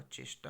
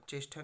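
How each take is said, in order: First: चेष्टा with unaspirated टा; correct pronunciation. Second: चेष्टा with aspirated ठा; wrong pronunciation. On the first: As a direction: say चेष्टा as "cheshta", no puff. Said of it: "होगा". (चेष्टा में अल्पप्राण टा बोलें) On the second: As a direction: say चेष्टा as "cheshtha", with a puff. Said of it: "नहीं होगा". (चेष्टा में टा की जगह ठा बोलें) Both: Shown as a demonstration.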